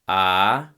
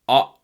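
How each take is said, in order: First: The vowel is said with plain, modal voicing. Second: The vowel is said with a glottal constriction. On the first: "modal voice"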